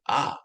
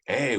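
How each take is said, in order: First: The vowel is a short reduced uh. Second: The vowel is a full long A. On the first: "we say ah" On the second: "A lot of times we don't say a"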